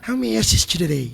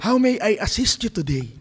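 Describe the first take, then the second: First: It is spoken with an American-style accent and slang. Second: It is spoken very clearly, without American slang. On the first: "dapat may slang" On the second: "pag malinaw na malinaw yung"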